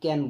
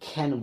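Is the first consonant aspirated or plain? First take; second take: plain; aspirated. First: The first consonant is plain, without a puff of air. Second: The first consonant is aspirated, with a puff of air. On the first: The speaker calls it wrong. "আমরা সবাই এটাকে ক্যান বলবো না" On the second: The speaker calls it right. "এটাকে খ্যান বলবো"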